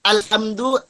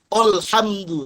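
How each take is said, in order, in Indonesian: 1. Bunyi awalnya tipis dan ringan. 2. Bunyi awalnya tebal dan berat. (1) "tipis alhamdu" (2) "jangan sampai ditebalkan, jangan alhamdu"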